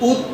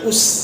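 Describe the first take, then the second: First: The final consonant is a soft th sound. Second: The final consonant is a hissing s sound. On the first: The speaker calls it right. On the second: The speaker calls it wrong.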